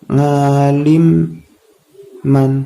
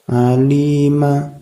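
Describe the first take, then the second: First: The word ends with a final nasal sound. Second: The word ends on a long vowel. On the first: The reading continues without a stop. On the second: The reading stops at this word.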